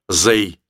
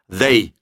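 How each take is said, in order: First: The word begins with a z sound. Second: The word begins with a th sound. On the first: The speaker calls it wrong. "чем «зэй»" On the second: The speaker calls it right. "язык нужно высовывать между зубов"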